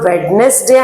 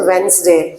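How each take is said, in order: First: The d sound in the middle is pronounced. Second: The d sound in the middle is silent. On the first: The speaker calls it wrong. "దీన్ని మనం వెడ్నెస్డే అంటాం" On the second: The speaker calls it right. "Actual pronunciation వెన్స్డే"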